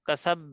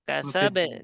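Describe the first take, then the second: First: The final b is held hard like a doubled consonant. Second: The final b is released with a light bounce. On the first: The speaker calls it wrong. "এরকম তাসদিদ শক্ত হয়ে যায়" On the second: The speaker calls it right. "এখানে হবে কলকলা"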